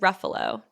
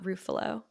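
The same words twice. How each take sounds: First: The name is said to rhyme with buffalo. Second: The name is said not rhyming with buffalo. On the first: The speaker calls it right. "that makes me think it's Ruffalo, ... if it rhymes with buffalo" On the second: The speaker calls it wrong. "not Ruffalo"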